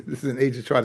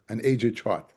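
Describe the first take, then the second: First: Said in the usual way. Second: Laughing. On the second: Real, not acted. Teacher laughs at old chart.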